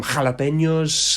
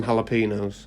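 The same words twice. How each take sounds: First: Jalapenos with a Spanish h and ny; Spanish pronunciation. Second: Jalapenos with h but no ny; toned-down jalapenos, "hala-PEE-nos"; halfway pronunciation. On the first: Ordering Subway toppings, jalapenos in proper Spanish. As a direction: say jalapenos full-on Spanish, "hala-PEN-yos". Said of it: "what I wanna say is". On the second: Ordering at Subway, jalapenos halfway to Spanish. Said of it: "I meet 'em halfway". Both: Shown as a demonstration.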